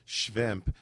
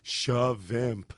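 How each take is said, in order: First: The word is said as one syllable, shvimp. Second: The word is said as two syllables, shavimp. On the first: "she doesn't just go shvimp" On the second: "She'll go shavimp"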